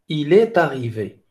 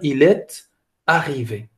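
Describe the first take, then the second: First: The words flow together without any break. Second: There is a break before 'arrivé'. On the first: "on a deux liaisons ici" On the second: "Il a prononcé la consonne de liaison, mais il n'a pas fait d'enchaînement"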